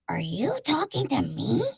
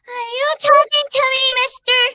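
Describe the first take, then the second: First: It is said in Marge Simpson's voice. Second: It is said in a child's voice.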